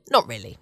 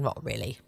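First: Said in the usual way. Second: Much lower and softer, half to herself; muttered aside. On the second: Real, not acted. Telling listeners she isn't moaning, a muttered aside. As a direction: take it back under your breath. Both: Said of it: "So I'm not moaning".

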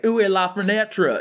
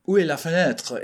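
First: Higher, hammed-up Texan mangling of French; badly Texan-accented French. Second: Put-on lightly mangled French with a Texan accent. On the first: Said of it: "It's not that bad, right?". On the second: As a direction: try French as a Texan would speak it. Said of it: "figure out what that sounds like".

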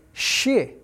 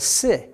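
First: Shi with a hushing sh, like "shih"; sh sound. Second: Si with a plain s, like "sih"; s sound. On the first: Teacher correcting the English first syllable, sh sound. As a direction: say shi with sh at the start. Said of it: "is actually shi instead of si". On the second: Teacher showing the English first syllable, s sound. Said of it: "instead of si". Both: Shown as a demonstration.

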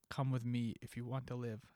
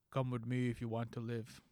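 First: Said in the usual way. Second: A lightly voiced Arnold Schwarzenegger, slightly lower; a half-hearted Arnold accent, barely shifted; terrible Arnold. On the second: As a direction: attempt a clumsy Terminator impression. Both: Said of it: "That's a terrible Arnold".

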